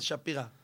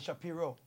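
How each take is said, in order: First: The name ends with an 'a' sound. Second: The name ends with an 'o' sound. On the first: This is how the name is said in Israel. "בארץ שפירה" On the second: This is how the name is said in America. "באמריקה זה שפירו"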